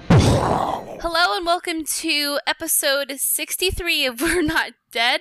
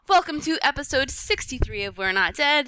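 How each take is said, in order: First: It is said hesitantly, without confidence. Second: It is said confidently, with gusto.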